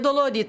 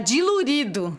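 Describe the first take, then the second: First: The first vowels are pronounced 'do-lo'. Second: The first vowels are pronounced 'di-lu'. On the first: This is the standard way of saying it. The speaker calls it right. "Eles não falam assim" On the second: This is how rural country people say it. The speaker calls it wrong. "tá dilurido"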